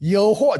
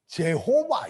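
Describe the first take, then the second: First: The name begins with a 'y' sound. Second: The name begins with a 'j' sound. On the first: This is the original Hebrew pronunciation. The speaker calls it right. "히브리어 그대로 발음하게 되면 여호와예요" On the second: Western speakers cannot say the original sound. The speaker calls it wrong. "여자를 발음을 못하니까 제호바 이래요"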